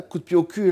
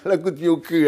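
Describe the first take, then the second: First: Said in the usual way. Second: Laughing. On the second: Real, not acted. Laughs repeating his own blunder.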